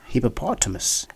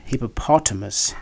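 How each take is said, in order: First: The stress is on the third syllable. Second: The same.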